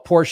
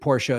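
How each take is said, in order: First: The name is said with English pronunciation. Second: The name is said with German pronunciation. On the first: "Porsche is the English pronunciation" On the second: "Porsche is the German pronunciation"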